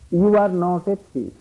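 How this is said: It sounds sincere, meaning what it says.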